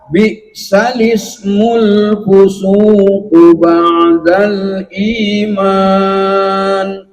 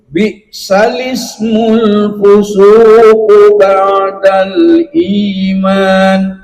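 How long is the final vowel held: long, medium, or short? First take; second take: medium; short. First: The last vowel is held for four beats. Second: The last vowel is held for two beats. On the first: "Yang kedua yang tawasud, empat harokat" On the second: "Kita ulangi dari yang dua dulu"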